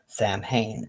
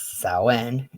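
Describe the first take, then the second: First: It uses the US pronunciation of the word. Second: It uses the Irish pronunciation of the word. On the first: "sometimes Samhain in the U S" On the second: "is pronounced as Samhain in Ireland"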